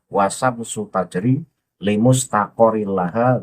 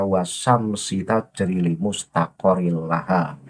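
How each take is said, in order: First: The word syams ends with a u vowel. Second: The word syams ends with an i vowel. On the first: The speaker calls it right. "Harus dibaca domah" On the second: The speaker calls it wrong. "Itu salah, nggak pas"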